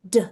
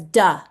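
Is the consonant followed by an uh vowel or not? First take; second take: no vowel; uh vowel. First: The consonant is a short puff without vowel. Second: The consonant is followed by an uh vowel. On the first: The speaker calls it right. "like a little puff of air" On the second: The speaker calls it wrong. "that is not correct. ... that uh sound is actually quite disruptive"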